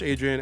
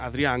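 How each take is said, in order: First: The name is pronounced with English sounds. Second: The name is pronounced with Spanish sounds. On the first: "you can say it in English" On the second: "Adrian in Spanish"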